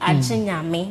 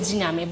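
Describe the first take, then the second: First: The word starts with an extra a vowel. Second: The word starts directly with the j sound. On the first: This is the speaker's own preferred way. "I like to add the A to it" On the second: This is the common way people say it. "People call it Jinyame"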